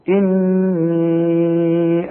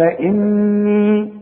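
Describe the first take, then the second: First: The final vowel is held long, about four counts. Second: The final vowel is held short, about two counts. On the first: The word runs straight on into the next word. "ما دام عندي مد بعده همزة اي كتابة المصحف بتقول لي مد اربع حركات" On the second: The reciter stops after this word. "انما اذا وقف قال اني"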